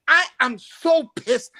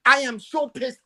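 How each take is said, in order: First: Slowed, dragged-out angry statement; slow fuming complaint. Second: Said in the usual way. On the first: Real, not acted. Caller telling the show host how upset he is, slow and fuming. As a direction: stretch each word out in disgust. Fan venting after Liverpool loss.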